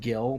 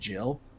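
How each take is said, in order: First: The word begins with a hard G sound. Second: The word begins with a soft J sound. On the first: The speaker calls it wrong. "I always butcher the name of the currency in Final Fantasy. I call it Gil" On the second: The speaker calls it right. "but I think it's called Jill"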